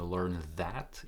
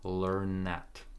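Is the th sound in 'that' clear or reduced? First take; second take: clear; reduced. First: The th sound in 'that' is clearly pronounced. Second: The th sound is absorbed into the n. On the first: "I'm not saying learn that, even though it's correct" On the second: "when you say it fast"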